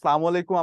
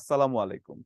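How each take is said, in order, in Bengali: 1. এই অভিবাদনটি তাড়াহুড়ো করে বলা হয়, ফলে শুরুর 'as' বাদ পড়ে যায়। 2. এই অভিবাদনটি পূর্ণ 'as' ধ্বনি দিয়ে শুরু হয়। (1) "আমরা যখন খুব তাড়াতাড়ি করে বলি" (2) "প্রকৃত যে উচ্চারণ আছে সেটা হচ্ছে"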